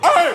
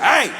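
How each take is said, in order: First: The voice cracks from exasperation. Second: The voice stays steady and controlled.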